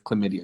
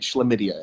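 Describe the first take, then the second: First: The word is said in a plain, ordinary way. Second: The word is said in a posh, fancy way.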